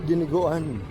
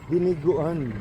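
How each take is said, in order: The two takes are said the same way.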